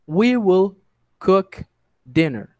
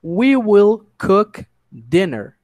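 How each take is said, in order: First: Broken into separate words with pauses between. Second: Slow, even model sentence in one breath; slow whole sentence. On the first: Teacher splits the sentence into words for students to repeat. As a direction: pause after each word so students follow. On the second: Teacher models the full sentence slowly for the class. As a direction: say it slowly as one smooth line. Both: Shown as a demonstration. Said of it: "tô tentando ir bem devagar".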